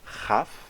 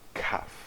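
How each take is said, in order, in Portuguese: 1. Começa com um ch rascante. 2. Começa com um k duro e fechado. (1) "sem o dagesh" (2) "com o dagesh"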